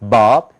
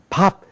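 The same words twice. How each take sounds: First: The first consonant is voiced, with throat vibration. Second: The first consonant is voiceless, without throat vibration. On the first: "미국 사람들은 목이 떨려요" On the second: "목이 안 떨린단 말이죠"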